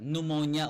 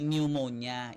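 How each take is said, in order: First: The silent letters are dropped in this version. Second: Every letter is sounded out in this version. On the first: The speaker calls it right. "pneumonia okay na" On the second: The speaker calls it wrong. "hindi pneumonia. Iba ang basa nun"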